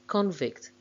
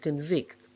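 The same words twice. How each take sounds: First: The stress is on the first syllable. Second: The stress is on the second syllable. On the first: It is used as a noun. "main stress of the nouns is on the first syllable" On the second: It is used as a verb. "main stress of the verbs is on the second syllable"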